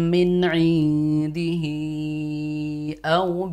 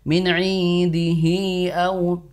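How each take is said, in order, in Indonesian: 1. Vokal sebelum au dibaca panjang. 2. Vokal sebelum au terlalu pendek.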